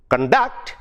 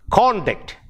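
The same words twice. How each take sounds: First: Cun-DUCT, weak first vowel, rising onto DUCT; second-syllable stress on conduct. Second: CON-duct, high first syllable, then falling; first-syllable stress on conduct. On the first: Teacher explaining when it becomes a verb, stressed con-DUCT. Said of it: "the second syllable stress". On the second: Teacher giving last class's noun example, stressed CON-duct. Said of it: "which is a noun or an adjective". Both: Shown as a demonstration.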